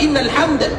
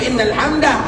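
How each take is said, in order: First: The word ends on a bare d sound. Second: The word ends with an added ah sound. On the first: The speaker calls it right. "itu cara berhentinya" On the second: The speaker calls it wrong. "bisa jadi salah di dalam pengucapan"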